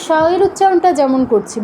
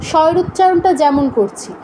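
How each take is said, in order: Both takes have the same delivery.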